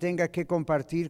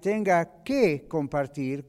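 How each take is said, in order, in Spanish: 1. La palabra que se dice sin énfasis. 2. La palabra que se dice con énfasis.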